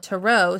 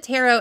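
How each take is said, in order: First: "tarot" as tuh-ROH; "tarot" with a weak first vowel, tuh-ROH; other tarot pronunciation. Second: "tarot" as TAIR-oh; "tarot" said like TARE-oh; first tarot pronunciation. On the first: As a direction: say "tarot" stressed on the second syllable, tuh-ROH. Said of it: "listening to someone call it". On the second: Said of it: "I called it". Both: Shown as a demonstration.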